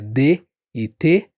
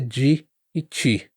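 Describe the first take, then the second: First: The d and t sound plain and hard. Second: The d and t sound like j and ch. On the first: "Nem sempre é" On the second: "às vezes é"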